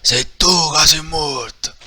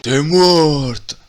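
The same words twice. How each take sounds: First: Drawn-out loud shouted comeback; slow loud retort. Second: Drawn-out, loud menacing shout; slow loud threat. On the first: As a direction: throw the threat back slowly. Hero retort. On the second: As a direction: spit the threat slowly. Villain threat. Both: Acted.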